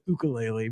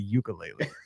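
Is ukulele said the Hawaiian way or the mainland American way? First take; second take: Hawaiian; mainland American. First: The word is said with a Hawaiian-style pronunciation. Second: The word is said with a mainland American pronunciation. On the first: The speaker has embraced the island culture. The speaker calls it right. "dude's been to Alani now, so he calls it the ukulele" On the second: This is how it was said before the trip. The speaker calls it wrong. "Before he went, it was the ukulele"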